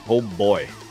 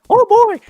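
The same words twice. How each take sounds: First: It is said in a normal speaking voice. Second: It is said in a high, squeaky cartoon voice.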